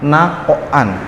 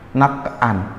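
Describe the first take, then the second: First: The q sound is released with an echoing bounce. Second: The q sound is cut off without a bounce. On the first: The speaker calls it right. "Tapi dia harus dipantulkan" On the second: The speaker calls it wrong. "Bukan bukan nak a, nakan, bukan"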